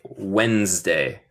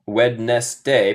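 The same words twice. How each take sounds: First: Wednesday as "wenz-day", two syllables; correct pronunciation. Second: Wednesday as "wed-nes-day", three syllables; spelling pronunciation. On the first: Teacher gives the spoken form after the spelling, correct pronunciation. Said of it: "pero se dice". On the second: Teacher shows the strange spelling, spelling pronunciation. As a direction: sound out every written part of "Wednesday". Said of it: "y deletreamos muy extraño". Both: Shown as a demonstration.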